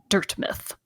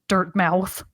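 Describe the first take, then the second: First: The second syllable has a reduced, weak vowel. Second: The second syllable has a full 'mouth' vowel. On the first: "depending on your pronunciation" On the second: "depending on your pronunciation"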